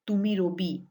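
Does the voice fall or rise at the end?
fall. The pitch falls at the end. It states that this is so. "is a statement"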